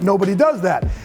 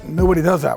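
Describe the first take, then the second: First: It is said in an eager, enthusiastic tone. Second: It is said in a dismissive, doubtful tone. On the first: It is a reason to do it. "that's why we're doing it" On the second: It is a reason not to do it. "right, nobody does that. We're not doing that"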